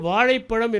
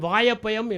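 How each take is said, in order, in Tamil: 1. இந்தச் சொல் ழ (zh) ஒலியை இரண்டு முறை பயன்படுத்துகிறது. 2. இந்தச் சொல் ழ-க்குப் பதிலாக y ஒலியைப் பயன்படுத்துகிறது. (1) "தமிழாசிரியர் ஒரு மாணவனுக்கு வாழைப்பழம் என்று சொல்லிக் கொடுத்தார்" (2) "அவன் வாயப்பயம் என்று சொன்னான்"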